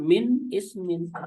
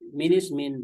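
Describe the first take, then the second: First: A glottal stop separates the two words. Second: The words run together with no glottal stop. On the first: The speaker calls it wrong. "bukan min ismin" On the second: The speaker calls it right. "tapi bacaannya adalah minismin"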